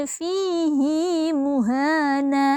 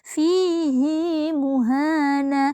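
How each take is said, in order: Both takes have the same delivery.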